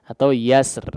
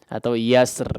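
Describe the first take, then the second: The two takes are said the same way.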